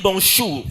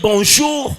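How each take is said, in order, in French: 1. La consonne du milieu est un son ch sourd. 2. La consonne du milieu est un son j sonore. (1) "moi je dis bonjour" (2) "Au lieu de dire bonjour"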